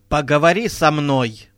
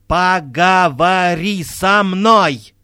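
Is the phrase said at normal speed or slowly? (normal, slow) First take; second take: normal; slow. First: It is said at a normal, ordinary pace. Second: It is said slowly, distinctly, with emphasis.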